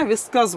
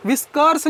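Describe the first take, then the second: First: व्हिस्कर्स without the r, "viskuhs"; silent r. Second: व्हिस्कर्स with the r fully sounded, "viskurs". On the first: Teacher correcting the word for students, व्हिस्कर्स with r silent. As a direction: leave the r out of व्हिस्कर्स. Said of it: "व्हिस्कर्स बोलना है". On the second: Teacher showing the mistake to avoid, व्हिस्कर्स with an audible r. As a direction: pronounce the r in व्हिस्कर्स. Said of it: "नहीं बोलना है". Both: Shown as a demonstration.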